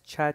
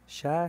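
First: The syllable begins with a sharp ch sound. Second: The syllable begins with a soft sh sound. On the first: The speaker calls it wrong. "No es cha, chi, chu. No quiero eso" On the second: The speaker calls it right. "Sha, shi, shu"

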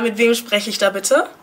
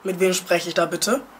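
First: The speaker uses her ordinary natural voice. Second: The speaker uses an altered, disguised voice.

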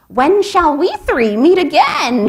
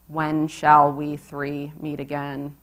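First: It is said in a pinched, shrill, shrieking voice. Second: It is said in a flat, even monotone voice. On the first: It plays up a cackling witch. "her voice a pinched shriek" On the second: It refuses to play the cackling witch. "I responded in monotone, refusing to squawk"

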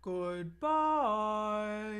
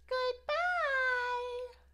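First: It is said in a very low voice. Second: It is said in a very high voice.

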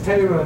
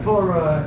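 First: It has the Lithuanian Hebrew vowel. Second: It has the standard Israeli Hebrew vowel. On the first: "That's Lithuanian style" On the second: "not Torah"

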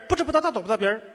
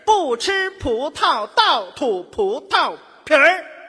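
First: The phrase is said at a fast pace. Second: The phrase is said at a slow pace. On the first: The speaker calls it right. "那我快点" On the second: The speaker calls it wrong. "语速学有点慢"

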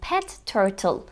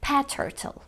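First: The t sound is said twice, once per word. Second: The t sound is said only once, shared. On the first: "telaffuz edilmesini beklediğimiz" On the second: "Bir tane T"

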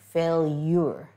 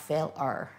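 First: The ending has a 'y' glide, like 'yer'. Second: The ending is a plain 'er' with no glide. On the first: The speaker calls it right. "Failure, not fail-er" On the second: The speaker calls it wrong. "not fail-er"

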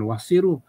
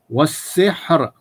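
First: The word ends with an added final vowel. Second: The word ends on a stopped final consonant. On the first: The speaker calls it wrong. "Bukan wassiru" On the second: The speaker calls it right. "Matikan hujung"

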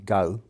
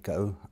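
First: It is said in a London accent. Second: It is said in the speaker's own accent. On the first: "A Londoner might say go" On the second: "So I would say go"

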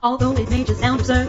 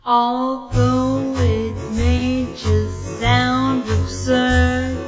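First: It is said too fast. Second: It is said too slowly.

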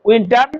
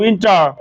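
First: It is said in a Bengali accent. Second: It is said American style, with the r. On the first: "বাঙালির উচ্চারণ" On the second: "আমেরিকানরা আর এর উচ্চারণ যে নিয়ে আসবে"

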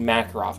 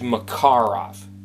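First: The word is said the common way. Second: The word is said the native way. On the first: The speaker calls it wrong. "I'm mispronouncing it" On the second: The speaker calls it right. "The real pronunciation is Makarov"

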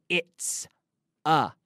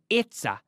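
First: The two words are said separately. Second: The two words are joined together. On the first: The speaker calls it wrong. "No se dice it's a" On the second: The speaker calls it right. "sino it's a"

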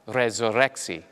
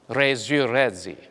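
First: It is said in a standard Latin pronunciation. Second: It is said in a medieval French Latin pronunciation.

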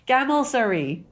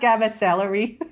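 First: The name sounds like 'gamel-sery'. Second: The name sounds like 'gamma celery'. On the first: The speaker calls it right. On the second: The speaker calls it wrong. "It's not Gamma Celery"

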